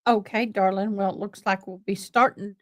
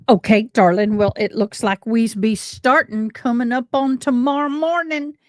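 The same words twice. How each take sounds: First: Said in the usual way. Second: East Tennessee home accent. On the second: Shown as a demonstration. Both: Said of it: "I get that home accent going".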